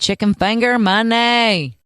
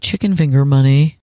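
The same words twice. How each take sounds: First: It is said excitedly, with lots of energy. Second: It is said flatly, with little energy. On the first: The speaker calls it right. "You got to get excited" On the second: The speaker calls it wrong. "it's too boring if you say"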